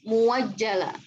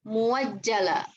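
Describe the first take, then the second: Both takes have the same delivery.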